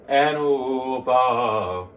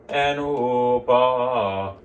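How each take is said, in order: Both takes have the same delivery.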